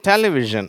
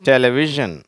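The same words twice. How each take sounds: First: The stress is on the first syllable. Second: The stress is on the third syllable. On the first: "அந்த முதல் சிலபலையும் stress பண்ணலாம்" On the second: "அந்த வி அப்படிங்கிறதும் சில பேர் stress பண்ணி உச்சரிக்கிறாங்க"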